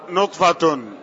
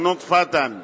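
First: The word ends with an -un vowel ending. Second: The word ends with an -an vowel ending. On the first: The word is the subject of the sentence. "الأولى بالرفع" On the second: The word describes a state: created as a drop. "وفي رواية القابسي بالنصب"

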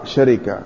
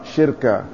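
First: It begins sha, with an i after the r. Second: It begins shi, with no vowel after the r. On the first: "فتح الشين وكسر الراء" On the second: "كسر الشين وسكون الراء"

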